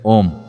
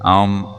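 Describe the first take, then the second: First: It begins directly with a rounded 'o' sound. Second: It opens with 'ah' and closes to 'oo', 'mm'. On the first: This is a distorted version of the sound. The speaker calls it wrong. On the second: This is the original sound. The speaker calls it right.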